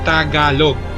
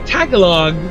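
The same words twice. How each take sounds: First: Said the Filipino way, split into two-letter syllables. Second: Said the American way, split into three-letter syllables. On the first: The person saying it is Filipino. The speaker calls it right. "we read every uh, syllable in two letters. So that's why we have Tagalog" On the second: The person saying it is not really Filipino. The speaker calls it wrong. "if they say Tagalog, then you would say, ah, you're not a Filipino"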